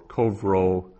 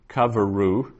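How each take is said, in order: First: The word is said with two syllables. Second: The word is said with three syllables. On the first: "which is a two-syllable word" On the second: "which is a three-syllable word with a vocal shava"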